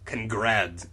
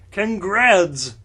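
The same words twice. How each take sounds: First: Said in the usual way. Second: Congrats said as Congradz, ending in a D; Congrats, loud, the ending voiced like a D. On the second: Shown as a demonstration. Reading the misspelt word aloud, louder. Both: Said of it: "with a D".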